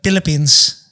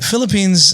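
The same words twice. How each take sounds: First: The word begins with a P sound. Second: The word begins with an F sound. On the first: "Filipinos would be like Philippines. They wouldn't even pronounce the F" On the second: "Philippines is fine"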